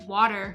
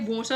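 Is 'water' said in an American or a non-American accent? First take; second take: American; non-American. First: The word is said in an American accent. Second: The word is said in a non-American accent. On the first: People at restaurants understand it. "I default to saying water so that people can understand me ... I sound American" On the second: People at restaurants do not understand it. "I say water and no one understands what I say"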